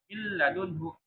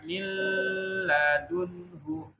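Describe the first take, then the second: First: The sound is cut short, said too fast. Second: The sound is held too long, drawn out. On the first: "dan tidak juga kecepatan, tidak miladunhu juga" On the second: "tidak terlalu lama, tidak miladunhu"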